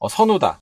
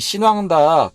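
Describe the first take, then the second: First: The name is said as Seonuda. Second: The name is said as Xinwangda.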